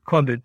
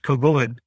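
First: The word is given its Yiddish pronunciation. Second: The word is given its Hebrew pronunciation. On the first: "or the Yiddish" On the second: "depending on whether you say the Hebrew"

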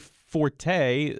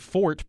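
First: The word has two syllables, ending in a vowel. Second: The word has one syllable, ending in t. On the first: This is the commonly used pronunciation. "because you saw the E" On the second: This is the older, technically proper pronunciation. "I never hear anyone say fort"

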